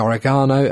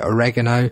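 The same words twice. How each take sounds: First: The word is said the British way. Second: The word is said the American way. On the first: "British people say oregano" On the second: "Americans say oregano"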